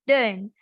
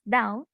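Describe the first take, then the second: First: It is said in a Scottish English accent. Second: It is said in a Received Pronunciation accent. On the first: "in S S E, ... the word down will be pronounced as dern" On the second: "in R P, the word down will be pronounced as down"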